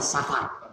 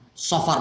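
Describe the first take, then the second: First: The first vowel sounds open, like 'a'. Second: The first vowel sounds dark, like 'o'. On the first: The speaker calls it wrong. "bukan Safar" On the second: The speaker calls it right. "pakai Sot. Sofar bukan Safar"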